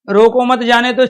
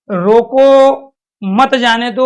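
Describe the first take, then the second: First: There is a pause right after 'mat'. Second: There is a pause right after 'roko'.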